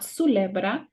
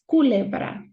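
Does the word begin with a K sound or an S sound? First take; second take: S sound; K sound. First: The word begins with an S sound. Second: The word begins with a K sound. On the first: The speaker calls it wrong. "It's not culebra" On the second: The speaker calls it right. "it's culebra"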